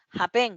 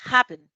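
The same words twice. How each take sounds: First: "happen" misstressed as ha-PEN; ha-PEN, "happen" accented on its second syllable; wrong stress on second syllable. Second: "happen" as HAP-pen, first syllable punched louder; HAP-pen, "happen" accented at the start; stress on first syllable. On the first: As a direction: say "happen" with the weight on the last syllable, rising. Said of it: "Aquí es donde tiene el acento. No decimos". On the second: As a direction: say "happen" with a strong first syllable, falling away. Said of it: "Decimos happen". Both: Shown as a demonstration.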